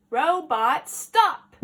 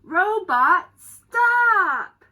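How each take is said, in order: First: Loud title with a rising end; playful title call. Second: Slow, loud, drawn-out title shout; title called out. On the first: Teacher repeating the title to the children, loud and rising. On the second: Teacher shouting the book title at the class, slow and loud. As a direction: announce the title big to the class. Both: Acted. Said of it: "reading the story".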